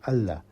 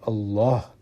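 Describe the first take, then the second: First: The L sound is light and thin. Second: The L sound is heavy and deep. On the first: The word is derived from Al-Ilah. "We should be saying" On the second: The word is a root word, not derived. "Allah is a very heavy pronunciation"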